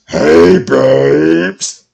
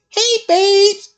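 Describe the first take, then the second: First: The voice is pitched lowest and deepest. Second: The voice is light and high-pitched.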